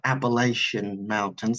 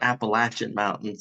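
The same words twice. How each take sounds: First: Appalachian is said the way outsiders say it. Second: Appalachian is said the way locals say it. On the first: The speaker is not from the region. The speaker calls it wrong. "It's not uh, Appalachian Mountains like you see on uh, television" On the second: The speaker is from the region. The speaker calls it right. "that's how you know someone's local if they pronounce it"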